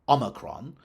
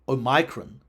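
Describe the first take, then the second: First: It is said in the common American way. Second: It is said in an old, unusual-sounding way. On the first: "U S variant G" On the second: "the now quite strange sounding variant C"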